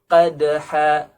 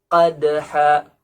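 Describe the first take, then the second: Both takes have the same delivery.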